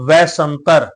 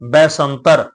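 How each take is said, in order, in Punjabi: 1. ਇਹ ਸ਼ਬਦ v ਧੁਨੀ ਨਾਲ ਸ਼ੁਰੂ ਹੁੰਦਾ ਹੈ। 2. ਇਹ ਸ਼ਬਦ b ਧੁਨੀ ਨਾਲ ਸ਼ੁਰੂ ਹੁੰਦਾ ਹੈ। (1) "ਵੋਵੇ ਸ਼ਬਦ ਦੇ ਉੱਪਰ ਦੋਲਾਵਾਂ ਲਾ ਕੇ ਮਹਾਰਾਜ ਜੀ ਨੇ ਇਹ ਸ਼ਬਦ ਲਿਖਿਆ ਹੈ" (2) "ਬੱਬੇ ਦੇ ਉੱਪਰ ਦੋਲਾਵਾਂ ਲਾ ਕੇ ਵੀ ਲਿਖਿਆ ਮਿਲਦਾ ਹੈ"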